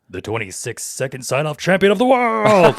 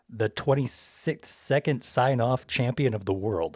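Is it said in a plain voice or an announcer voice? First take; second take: announcer; plain. First: It is read in an epic announcer voice. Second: It is read in a plain voice.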